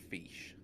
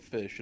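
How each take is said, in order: First: The vowel in fish sounds like ee. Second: The vowel in fish sounds plain and short. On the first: "saying the I's like extremely bad, like E's" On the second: "It won't be called a fish"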